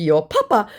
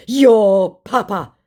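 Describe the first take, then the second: First: Said in the usual way. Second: Slow, loud, high scammer impression; mock angry scammer. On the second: Scammer insulting the baiter back, mock angry. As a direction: drag out the insult in a put-on voice.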